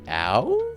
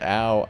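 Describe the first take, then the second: First: It is said as a question, rising. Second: It is said as a plain statement, falling.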